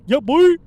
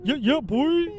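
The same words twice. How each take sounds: First: Hype-man shout. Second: A high, loud, put-on hype-man voice. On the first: Pretend. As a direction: yell it high and very loud like a hype man. Hype-man call on rap name. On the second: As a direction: bounce "Yeah, yeah, boy" like a DJ hype man. Hype-man call repeated.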